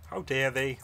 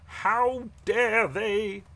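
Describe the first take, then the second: First: Said in the usual way. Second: Slow, high, louder indignation; drawn-out outrage. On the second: Acted. Paladin repeats his indignation at the beasts, slower and angrier. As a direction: stretch every word in disgust.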